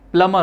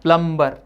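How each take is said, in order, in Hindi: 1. बीच में b की ध्वनि मौन होती है। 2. बीच में b की ध्वनि उच्चारित होती है। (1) "उसमें बी साइलेंट होता है" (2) "प्लम्बर गलत"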